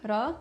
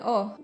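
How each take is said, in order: First: It is said with an a vowel after r. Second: It is said as a bare o vowel. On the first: This is the standard form. "instead of ra" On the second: This is an even more reduced colloquial form. "and even o"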